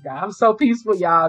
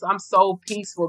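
First: A bit louder, delighted exclamation; exclaiming joyfully. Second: Said in the usual way. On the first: Retold or imitated. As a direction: proclaim it happily to God. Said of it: "I said".

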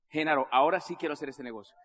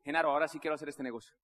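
First: Low, firm "ahora sí"; emphatic resolve. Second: Quick, low declaration; brisk resolve. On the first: César repeats his decision to Genaro, emphatic resolve. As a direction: repeat it lower, weighting "ahora sí" more firmly. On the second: César tells Genaro he is in, brisk resolve. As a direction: say it fast and low, in one go. First take, then emphatic repeat. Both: Retold or imitated.

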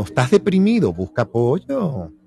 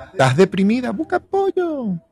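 First: Said in the usual way. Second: Second take pitched much higher on apoyo; a playful high-pitched busca apoyo; lightly voiced female take, high. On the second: Role play advice, female version.

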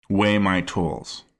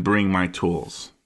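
First: "weigh my tools" slow, weigh stressed; weigh my tools quote. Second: "bring my tools" slow, bring stressed; bring my tools quote. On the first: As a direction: lean on weigh slowly. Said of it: "I could see how it could be". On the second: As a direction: lean on bring slowly. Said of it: "a beat between him saying". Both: Retold or imitated.

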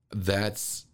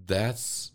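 No difference in how they are said.

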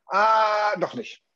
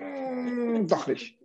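First: A bright, sudden "Ah, doch nicht"; sudden change of mind. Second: A drawn-out, hesitant "Mm, doch nicht" with a falling "doch"; hum, then waver; hesitant change of mind. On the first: (plötzlich umentschieden) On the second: (zögerlich umentschieden) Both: Shown as a demonstration. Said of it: "sagt aber nicht mittendrin".

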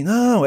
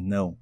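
First: NÃO pitched high and drawn out firmly; strong, emphatic NÃO in a raised pitch; forceful no. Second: NÃO low and soft, coldly; cold, lower, understated NÃO. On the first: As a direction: hit Não as a strong, higher refusal. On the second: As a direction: drop Não into a cool, quiet refusal. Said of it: "mais frio". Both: Shown as a demonstration.

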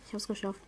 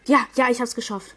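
First: Much softer, relieved murmur; quiet relief. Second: Loud triumphant cheer; excited cheer. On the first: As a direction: say it again to yourself, softly. Repeats win to himself. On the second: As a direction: shout out the win. Just won the round. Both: Real, not acted.

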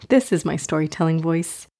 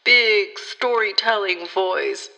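First: Said in the usual way. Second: Slow, drawn-out mock-grand storyteller; big storytelling voice. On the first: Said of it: "Just kidding". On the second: Host jokingly switching on her imagination, mock-grand storytelling voice. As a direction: put on an exaggerated storytelling voice, slowly.

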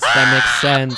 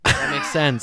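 First: Loud emphatic repeat; shouted. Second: Said in the usual way. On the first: Real, not acted. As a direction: shout it back louder.

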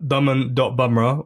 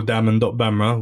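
First: "bumrah" said with an UH vowel, as in "bum"; bumrah pronunciation. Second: "bamrah" said with an open A vowel, as in "bam"; bamrah pronunciation. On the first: Guest giving his Instagram handle, "bumrah" with an UH vowel. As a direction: say "bumrah" with the first syllable like "bum". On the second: Guest offering the other reading of his handle, "bamrah" with an A vowel. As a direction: say "bamrah" with the first syllable like "bam". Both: Shown as a demonstration. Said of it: "whatever your philosophical stance on that is".

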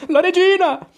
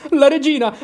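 First: Even higher, louder panicked repeat; panicked shout. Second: Much higher and louder cry of alarm; alarmed exclamation. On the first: Cinque repeats the warning, higher and more panicked. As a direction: cry it again in rising panic. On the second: Cinque spots the queen coming, louder alarmed cry. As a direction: shout the warning. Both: Acted. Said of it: "esclamò".

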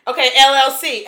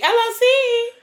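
First: Said in the usual way. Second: L L C pitched up high; playful show-off repeat. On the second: Pretend. Rich friend joking about money, L L C said high and showy. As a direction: flaunt L L C in a high voice. Bragging joke, repeat played up.

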